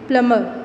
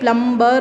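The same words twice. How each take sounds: First: The b is not pronounced at all. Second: The b is pronounced in the middle. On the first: The speaker calls it right. "b is silent" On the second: The speaker calls it wrong. "plumber नहीं बोलते हैं"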